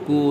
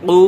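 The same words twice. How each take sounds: First: Said in the usual way. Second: Hard uvular q at the start of কু; deep Qaf. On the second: Shown as a demonstration. Teacher showing the difference between two letters, deep uvular কু. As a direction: hit কু from the very root of the tongue. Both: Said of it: "দুইটার মধ্যে পার্থক্য".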